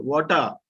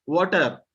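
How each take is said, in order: First: "Water" ending in an open "uh"; silent final R. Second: "Water" with a clear R at the end; sounded final R. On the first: Teacher correcting students, "Water" without final R. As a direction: drop the R at the end of "Water". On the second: Teacher showing the mistake, "Water" with R sounded. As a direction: pronounce the R ending "Water". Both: Shown as a demonstration. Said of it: "R should be removed".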